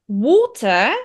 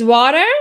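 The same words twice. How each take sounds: First: It is said in a British accent. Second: It is said in an American accent.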